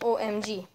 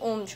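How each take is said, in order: First: Each letter is said separately. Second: The letters run together as one word. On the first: The speaker calls it right. "We say it as O M G. So all these alphabets are pronounced separately" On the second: The speaker calls it wrong. "We don't say it O M G"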